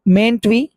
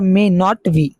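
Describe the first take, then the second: First: May not is contracted, rhyming with paint. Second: May and not are said as separate words.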